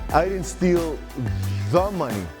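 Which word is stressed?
the money. The stress is on the words the money.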